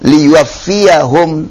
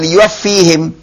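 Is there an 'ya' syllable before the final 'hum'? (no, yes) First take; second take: yes; no. First: It is said with a clear 'ya' syllable before 'hum'. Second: It is said without the 'ya' syllable, ending 'hHim'. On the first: The speaker calls it right. "fathah zahirah" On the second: The speaker calls it wrong. "Bukan liyuwaffihim"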